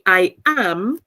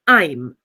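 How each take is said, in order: First: It is said as two full words. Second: It is said as one contracted syllable. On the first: The speaker calls it wrong. "I don't say I am" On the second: The speaker calls it right. "I say I'm"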